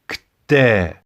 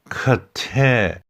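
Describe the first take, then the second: First: The K runs straight into T, no vowel. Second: A vowel sound is inserted between K and T. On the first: The speaker calls it right. "It's kte" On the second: The speaker calls it wrong. "Not kte. There is no vowel between that K and T"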